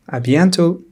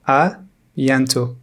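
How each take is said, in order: First: Said in the usual way. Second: À bientôt slow, with À held apart; slowed-down teacher's À bientôt; slow model. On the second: Shown as a demonstration. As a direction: say À bientôt slowly, part by part. Slow model, then natural repeat.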